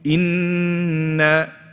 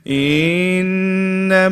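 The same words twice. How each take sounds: First: The sound before the nasal is joined straight away. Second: The sound before the nasal is drawn out. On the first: The speaker calls it right. "you join it straight away" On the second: The speaker calls it wrong. "they prolong the letter before"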